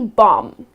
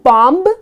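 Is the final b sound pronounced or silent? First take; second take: silent; pronounced. First: The final b sound is silent. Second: The final b sound is pronounced. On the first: The speaker calls it right. "it's just going to be bomb" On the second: The speaker calls it wrong. "It's not going to be bomb"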